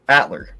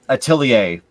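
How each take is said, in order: First: The name is said shortened. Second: The name is said in full. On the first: The speaker calls it wrong. "or as people like to call it" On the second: The speaker calls it right. "I've always known it to be another one"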